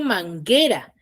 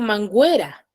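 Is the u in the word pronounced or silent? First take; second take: silent; pronounced. First: The u is silent before the e. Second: The u is sounded before the e. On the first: The speaker calls it right. "yo digo manguera" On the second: The speaker calls it wrong. "Yo no digo manguera"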